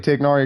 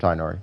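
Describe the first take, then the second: First: A throaty gh sound is in the middle. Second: No throaty sound is in the middle. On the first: This follows the name's Arabic origin. "I say Tiknari because it's Arabic" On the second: This follows how someone else says the name. "But he said Tainari, so I'll call him Tainari"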